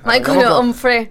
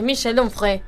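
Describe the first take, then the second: First: The first name is said like English Michael. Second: The first name is said the French way. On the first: The speaker calls it wrong. "Yo lo pronuncié mal, yo dije Michael Jackson" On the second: The speaker calls it right. "Y es [name], es de Francia"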